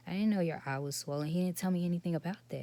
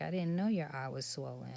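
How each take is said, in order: First: Louder and fast, defending herself; retold heated protest. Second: Said in the usual way. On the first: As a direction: rush it out, protesting and a bit raised. Retold argument with upset son.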